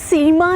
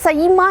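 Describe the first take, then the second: First: The name is said as 'Seema'. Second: The name is said as 'Saeema'. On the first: "ना सीमा है" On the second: "ना सईमा है"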